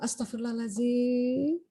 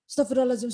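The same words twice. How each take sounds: First: It is said slowly, one at a time. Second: It is rushed, run into the next repetition. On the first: There is time to take a breath first. The speaker calls it right. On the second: There is no time to take a breath. The speaker calls it wrong. "Karena digabung"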